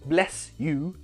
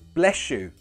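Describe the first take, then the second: First: The two words are kept separate, without sh. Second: The two words are joined by a sh sound. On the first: The speaker calls it wrong. "Not bless you" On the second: The speaker calls it right. "You connect the words with a sh sound"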